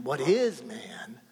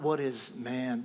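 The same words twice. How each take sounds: First: "is" drawn out slowly and leaned on; stress on IS. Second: Weight left on "man" at the end; stress on MAN. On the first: Preacher correcting how the psalm is read, slow stress on "is". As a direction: hit the word "is" in "what is man". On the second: Preacher showing the congregation the rejected reading, stress on "man". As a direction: say "what is man" leaning on "man". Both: Shown as a demonstration. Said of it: "emphasis on a different syllable".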